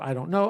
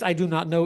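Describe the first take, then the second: First: Do and not merge into don't. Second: Every word is said fully and separately. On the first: "is contracted to I don't know" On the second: "the phrase I do not know"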